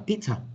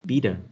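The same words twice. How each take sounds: First: The middle t is a clear t sound. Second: The middle t sounds like a d. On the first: "Đấy sẽ là cái cách đọc của giọng Anh" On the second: "khi mà chúng ta chuyển sang giọng Mỹ ... thay vì chúng ta đọc chữ T, chúng ta sẽ đọc sang chữ D"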